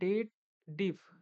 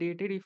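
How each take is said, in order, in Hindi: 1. इसे 'date' के बाद 'dif' कहा जाता है। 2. इसे 'dated' के बाद 'if' कहा जाता है। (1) "इसको लोग बोलते हैं डेट डिफ" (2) "ये जो डेटेड इफ मैं बोला हूँ"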